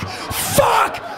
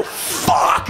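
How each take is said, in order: First: A big high yell of amazement; yelled curse. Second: A whispered, awestruck curse under the breath; breathy curse. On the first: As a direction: let the curse fly out loud and high. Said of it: "not the thing to yell as loud as you can". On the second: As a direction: breathe the word out in wonder. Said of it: "Which is not the thing to yell". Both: Retold or imitated.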